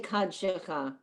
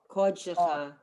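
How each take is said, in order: First: The first vowel is an open 'ah'. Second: The first vowel is a rounded 'aw'. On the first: The speaker calls it wrong. "You'll never hear anyone say Kad Shecha. It's wrong" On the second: The speaker calls it right. "I've learned it's aw"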